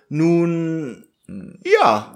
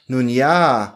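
First: There is a pause between nun and ja. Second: Nun ja is said together without a pause.

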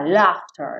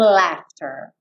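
First: It is said with a British accent. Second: It is said with an American accent.

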